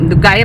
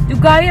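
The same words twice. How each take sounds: First: It is said in an angry, harsh tone. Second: It is said in a coy, whiny, dramatic tone. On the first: The speaker is annoyed at the slowness. "Lalo na pag galit ka na" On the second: The speaker is acting spoiled and dramatic. "pag gusto mo mag-inarte, inarte"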